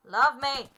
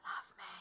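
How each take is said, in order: First: Loud mock demand for affection; hammed-up, forceful outburst at a horse; demanding shout. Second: Very soft, coaxing mock plea; hushed little entreaty to a horse. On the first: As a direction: shout it as a playful order. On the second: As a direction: beg quietly for affection. Pleading with the horse.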